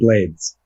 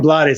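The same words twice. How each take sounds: First: The name is said in an American English way. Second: The name is said in a Spanish way. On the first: The speaker calls it right. "you're actually supposed to pronounce it the American way" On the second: The speaker calls it wrong. "I called him Blades. ... in the Dominican Republic where they call him Blades"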